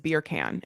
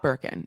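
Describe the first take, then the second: First: The first syllable sounds like 'beer'. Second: The first syllable sounds like 'bur'. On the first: The speaker calls it right. "It's beer can" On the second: The speaker calls it wrong. "it's not Birkin"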